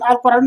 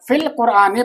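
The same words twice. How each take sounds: First: "कुरानु" ending in a u sound; form not to read. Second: "कुरान" with an added final e, "qur-aa-ne"; correct case ending. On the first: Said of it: "अल कुरानु नहीं पढ़ेंगे". ("कुरानु" के आख़िर में "उ" की आवाज़) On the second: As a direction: read "फिल कुरान" as "fil qur-aane", ending in -e. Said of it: "बल्कि क्या पढ़ेंगे". ("कुरान" के आख़िर में ज़ेर, यानी "कुराने") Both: Shown as a demonstration.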